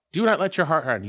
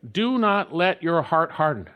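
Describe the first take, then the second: First: "not" hit hardest, falling at the end; stress on NOT. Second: "Do" leaned on, falling at the end; stress on DO. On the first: Preacher repeating the line, now leaning on "not". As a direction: punch the word "not". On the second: Preacher showing the line with the weight on "Do". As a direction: press the first word "Do". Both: Shown as a demonstration. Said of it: "You could say it grammatically this way".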